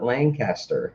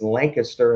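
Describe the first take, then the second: First: The N sound is clearly said in the word. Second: The N sound is left out of the word. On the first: The speaker calls it wrong. "and not Lancaster" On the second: The speaker calls it right. "the N can be silent in a word. So it's Lancaster"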